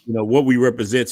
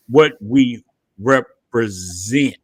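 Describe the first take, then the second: First: Said in the usual way. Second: "what we represent" drawn out slowly, low; slow emphasis. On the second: Shown as a demonstration.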